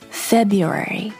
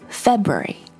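First: The word is said with four syllables. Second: The word is said with three syllables. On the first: "or four syllables" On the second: "Whether you say it in three syllables"

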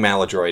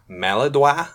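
First: The word is pronounced with an American sound. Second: The word is pronounced with a French sound. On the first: The speaker calls it right. "I think Maladroit is the common pronunciation" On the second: The speaker calls it wrong. "Some people pronounce it Maladroit. ... sounds pretentious. ... this is America"

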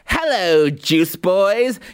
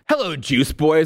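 First: It is said in a put-on character voice. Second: It is said in a plain, normal voice. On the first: The speaker calls it right. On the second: The speaker calls it wrong.

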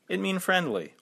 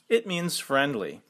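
First: Mean ends without an s sound. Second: Mean ends with an s sound. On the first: The speaker calls it wrong. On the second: The speaker calls it right.

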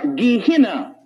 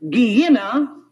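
First: The middle consonant sounds like an h. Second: The middle consonant sounds like a y.

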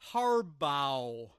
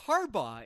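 First: The name is pronounced in an odd, unusual way. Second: The name is pronounced in the usual standard way. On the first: This mimics a radio host's mispronunciation. The speaker calls it wrong. "he pronounces some names really, really weird" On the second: This is the correct pronunciation. The speaker calls it right. "It's Harbaugh, isn't it?"

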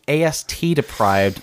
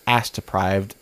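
First: The T sound is clearly pronounced. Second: The T sound is dropped. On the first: The speaker calls it right. "makes sure that everybody knows it's AstDeprived" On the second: The speaker calls it wrong. "because I don't enunciate the T"

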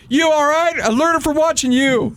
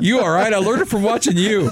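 First: It is said dramatically, really selling it. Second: It is said plainly, without much drama.

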